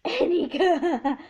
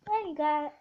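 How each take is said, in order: First: Laughing. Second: Said in the usual way. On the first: Real, not acted. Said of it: "laughing repeat". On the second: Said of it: "repeats the phrase laughing".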